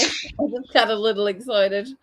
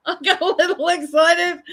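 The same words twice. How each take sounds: First: Said in the usual way. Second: "I got a little excited" said higher and louder, leaning on "got"; emphatic repeat. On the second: Shown as a demonstration. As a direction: repeat it with a punch on "got" to sell the excuse.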